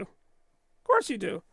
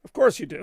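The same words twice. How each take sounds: First: Slow, knowing sarcasm; slow sarcastic echo to the chat; drawn-out teasing. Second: Said in the usual way. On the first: Acted. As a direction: stretch it out, mock-knowing. Repeated teasing reply.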